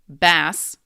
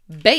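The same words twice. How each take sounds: First: The vowel is a short A sound. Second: The vowel is a long A sound. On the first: It refers to a fish. "if it's a fish, in which case we say bass with a short A" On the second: It refers to a guitar. "If it is a guitar"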